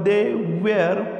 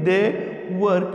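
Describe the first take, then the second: First: 'Were' is said drawn out, like 'wair'. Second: 'Were' is said short, like 'wer'. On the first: This is the form taught in schools. "शाळांमध्ये आपण वेअर वापर वेअर असा उच्चार काढतो" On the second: This is the everyday spoken form. "Spoken इंग्लिशमध्ये वर म्हटलं जातं"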